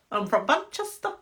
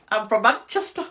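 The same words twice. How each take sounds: First: Said in the usual way. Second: Louder mock Manchester lad, I'm from Manchester. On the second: Shown as a demonstration. Doing a Manchester for viewers, louder and hammed-up. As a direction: ham up a Manchester bloke saying I'm from Manchester. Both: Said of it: "can I do a Manchester?".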